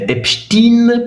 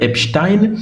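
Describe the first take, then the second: First: The ending is said so it sounds Soviet. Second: The ending is said like the one in Goldstein. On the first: The name's origin is disguised. The speaker calls it wrong. "On dit euh, Epstein" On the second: The name's origin is kept. The speaker calls it right. "pour ne pas dire Epstein"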